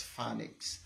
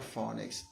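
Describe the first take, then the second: First: "phonics" as FAN-iks; "phonics" with a short flat A; correct pronunciation. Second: "phonics" with a long O, FOH-nix; "phonics" as FOH-nix, the way to avoid; "phonics" with an O like "phone"; wrong pronunciation. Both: Shown as a demonstration. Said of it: "never phonics".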